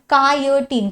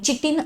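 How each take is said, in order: First: The word begins with a k sound. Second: The word begins with a ch sound. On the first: The speaker calls it right. "ह्याचा उच्चार कायटीन" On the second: The speaker calls it wrong. "चिटिन असं नाही करायचा"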